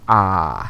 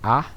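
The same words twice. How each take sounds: First: The vowel is held twice as long. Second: The vowel is held briefly, short. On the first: "we hold this one for a count of two" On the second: "We hold this one for a count of one"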